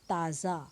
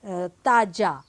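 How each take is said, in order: First: The consonant is said soft, Urdu-style. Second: The consonant is said hard, without softening. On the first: The speaker calls it right. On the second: The speaker calls it wrong.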